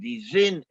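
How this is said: It is said in the southern Yiddish pronunciation. "in the south"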